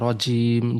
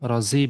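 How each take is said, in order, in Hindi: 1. बीच का व्यंजन j की आवाज़ है। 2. बीच का व्यंजन j की आवाज़ नहीं है। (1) "जीम से रजीम" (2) "रजीम नहीं"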